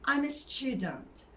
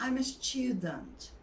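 Both takes have the same delivery.

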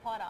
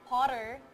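First: The R sound is dropped entirely. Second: The R sound is clearly pronounced.

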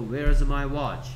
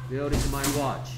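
First: The word 'is' is shortened onto 'where'. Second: The word 'is' is said in full.

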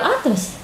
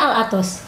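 First: The name is said with Indonesian-style sounds. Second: The name is said with Arabic-style sounds. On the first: This is the common local form of the name. The speaker calls it wrong. "Kenapa jadi Al-Atos?" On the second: This is the actual original form of the name. The speaker calls it right. "Sebetulnya Al-Atos"

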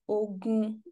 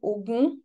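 First: The word is said on level mid tones. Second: The word is said with non-mid tones. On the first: It means war. "that is war, this is mid-tone" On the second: It means the god of iron. "which is god of iron"

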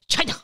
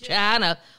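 First: It is said with a put-on foreign accent. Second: It is drawn out in a Southern drawl. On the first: This uses the accent that is not normally used. "we don't use the accent in every single thing. We don't say China" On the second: This is how people in the South say it. "If you're in the South, it's got seven syllables"

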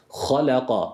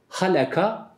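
First: The h is a deep, throaty sound. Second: The h is a plain, light sound. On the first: The speaker calls it right. "ha harfine dikkat edeceğiz. Tam çıkarmamız gerekir" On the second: The speaker calls it wrong. "Halaka değil"

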